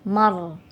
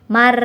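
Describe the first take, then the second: First: The r is said thick and heavy. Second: The r is said thin and light. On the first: The speaker calls it right. "tapi tebal" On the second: The speaker calls it wrong. "tidak boleh mar"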